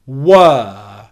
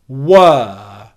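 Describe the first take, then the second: First: The vowel is a long 'er' sound. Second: The same.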